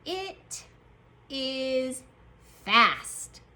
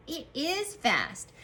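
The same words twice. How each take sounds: First: IT, IS, FAST with a pause after each; word-by-word dictation. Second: Said in the usual way. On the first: Shown as a demonstration. Teacher dictates the next sentence, word by word. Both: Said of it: "Our next sentence is going to say".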